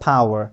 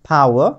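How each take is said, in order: First: It ends with an r sound, American style. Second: It ends without an r sound, British style. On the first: "আবার আর বলতে পারি" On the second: "আমরা আও বলতে পারি"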